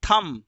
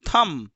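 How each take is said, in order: The two takes are said the same way.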